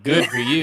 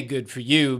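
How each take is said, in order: First: A more emphatic "Good for you"; imagined listeners' approval. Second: Said in the usual way. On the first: Retold or imitated. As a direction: push out "Good for you" with punch, as the audience would. Voices listeners' imagined cheering reaction.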